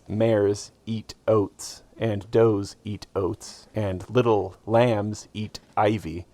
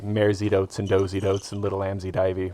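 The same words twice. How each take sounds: First: The words are said slowly and separately. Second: The words are slurred quickly together.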